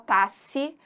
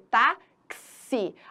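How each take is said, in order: First: The middle consonant is a single s sound. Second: The middle consonant is a ks sound. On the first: The speaker calls it wrong. "ninguém fala tasse" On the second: The speaker calls it right. "ele corresponde a dois fonemas"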